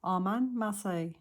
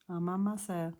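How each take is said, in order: First: "Armand Marseille" said aloud, corrected; voiced correction after the whisper; corrected name. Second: Whispered "Armand Marcel", read off the doll; unsure whispered first take; first misreading. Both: Real, not acted.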